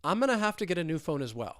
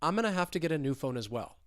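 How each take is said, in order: The two takes are said the same way.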